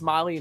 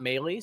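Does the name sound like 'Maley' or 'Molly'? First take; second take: Molly; Maley. First: The name sounds like 'Molly'. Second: The name sounds like 'May-lee'. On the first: The speaker calls it right. "I believe it's Molly" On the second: The speaker calls it wrong. "not Maley"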